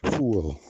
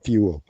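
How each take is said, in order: First: The vowel starts without a 'y' glide. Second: The vowel starts with a 'y' glide. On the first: The speaker calls it wrong. "pronouncing the word fuel as fool" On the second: The speaker calls it right. "instead of fuel"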